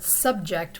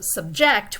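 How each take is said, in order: First: It carries the noun's stress pattern. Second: It carries the verb's stress pattern. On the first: It is used as a noun. "subject would be a noun" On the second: It is used as a verb. "subject would be a verb"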